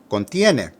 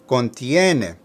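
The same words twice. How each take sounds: First: The word is said a little faster. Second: The word is said slowly and carefully.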